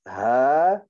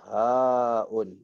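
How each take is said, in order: First: The word ends on an open vowel. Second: The word ends with an added 'un' sound. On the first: This is how it is recited in the Quran. "sebab tu bunyi bacaan ini" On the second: This is the letter's name. "Huruf ni nama dia haun"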